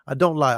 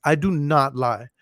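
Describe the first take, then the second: First: Said in the usual way. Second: Each word slow and separate; emphatic denial. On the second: Shown as a demonstration. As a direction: lay down I do not lie like a promise. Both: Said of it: "look, I don't lie on here".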